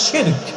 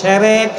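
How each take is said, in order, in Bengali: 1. এটি shirk বলা হয়, sh ধ্বনি সহ। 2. এটি দুই অংশে বলা হয়, se-rek। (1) "শব্দটা হচ্ছে শিরক" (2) "অনেকে কয় সেরেক"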